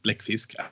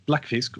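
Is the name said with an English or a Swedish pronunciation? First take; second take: Swedish; English. First: The name is said with a Swedish pronunciation. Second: The name is said with an English pronunciation.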